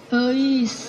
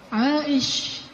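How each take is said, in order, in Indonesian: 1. Dimulai dengan bunyi e. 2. Dimulai dengan bunyi ai. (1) "Sampai di Sunda jadinya" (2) "panggilan Aisyah"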